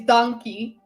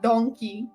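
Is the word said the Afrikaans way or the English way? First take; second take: Afrikaans; English. First: It is said with Afrikaans vowels, like dankie. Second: It is said like the English word donkey. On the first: The speaker calls it right. "the way you say it is donkey" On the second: The speaker calls it wrong. "not donkey"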